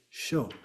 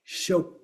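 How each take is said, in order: First: "show" left open on the vowel; just "show", nothing closing it; silent ending. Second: "show" closed with a stop at the end; "show" cut off by its last consonant; final consonant sounded. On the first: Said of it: "There's no end at the end". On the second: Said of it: "And then the same effect". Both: Shown as a demonstration.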